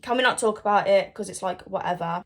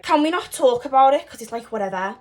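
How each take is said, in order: First: Said in the usual way. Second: Put-on Gabby's line redone in Scouse accent. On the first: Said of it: "Oh, wait, wait, wait". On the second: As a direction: say it like a Liverpool girl. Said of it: "I can do a Scouse accent".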